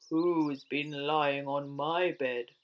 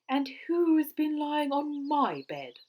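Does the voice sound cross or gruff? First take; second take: gruff; cross. First: It is said in Father Bear's booming, gruff voice. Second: It is said in Mother Bear's cross voice.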